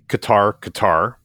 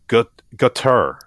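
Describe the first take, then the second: First: The name does not sound like 'gutter'. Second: The name sounds much like 'gutter'. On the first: This is how business people say it. "Business people pronounce Qatar" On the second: This is how the State Department says it. "the State Department pronounces it something closer to gutter"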